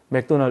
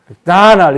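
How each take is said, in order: First: It is said flat, without intonation. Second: It is said with English-style intonation.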